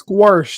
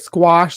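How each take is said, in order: First: It is said with an added local sound. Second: It is said without any added sound. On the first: This is how people in the area say it. The speaker calls it wrong. "here they call they say squash too" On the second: This is the usual way to say it. The speaker calls it right. "instead of squash"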